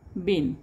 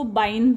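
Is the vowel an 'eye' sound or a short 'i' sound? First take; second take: short i; eye. First: The vowel is a short 'i' sound. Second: The vowel is an 'eye' sound. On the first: The speaker calls it right. "इथे तुम्हाला आयचा उच्चार हा वेलांटीचाच करायचा आहे" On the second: The speaker calls it wrong. "इथे जर मी आई उच्चार केला तर तो बाईन होईल"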